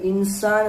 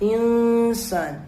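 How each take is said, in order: First: The n before the s is clearly pronounced. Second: The n before the s is hidden and nasal. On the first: The speaker calls it wrong. "ഇൻസാൻ എന്ന് പറയരുത്" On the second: The speaker calls it right. "അത് അവ്യക്തമാക്കണം"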